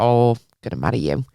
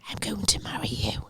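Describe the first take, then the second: First: It is said in a light, casual tone. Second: It is said in a creepy, obsessive tone.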